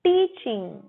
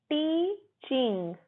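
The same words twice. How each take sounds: First: 'टीचिंग' whole, as TEE-ching; 'टीचिंग' in one go with a falling end; model pronunciation. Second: 'टीचिंग' slowly as tee, ching; broken into syllables. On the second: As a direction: split 'टीचिंग' into two held parts. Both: Shown as a demonstration. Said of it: "सिखाना को बोलते हैं".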